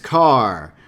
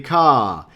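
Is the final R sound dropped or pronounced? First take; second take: pronounced; dropped. First: The final R is hard, Chicago style. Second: The final R is dropped, New York style. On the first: "In Chicago, it's car with a hard R" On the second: "in New York, it could be ka"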